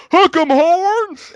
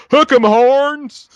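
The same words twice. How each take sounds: First: Loud, high, drawn-out Texan holler; slow Southern stadium shout; Southern yell. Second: Drawn-out high yelled cheer; slow booming football chant; Texas fan cheer. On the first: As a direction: yell it like a Texas football fan. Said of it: "I just yell out". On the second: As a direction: belt it like a stadium fan. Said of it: "And they say". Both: Retold or imitated.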